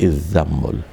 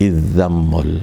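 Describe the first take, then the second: The two takes are said the same way.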